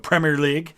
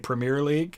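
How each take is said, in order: First: Premier is pronounced the British way. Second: Premier is pronounced the American way. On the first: The speaker calls it right. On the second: The speaker calls it wrong.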